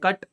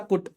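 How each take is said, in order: First: The vowel is a short open uh sound. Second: The vowel is a rounded oo sound. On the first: The speaker calls it right. "ये होता है कट" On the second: The speaker calls it wrong. "ये नहीं होता कुट"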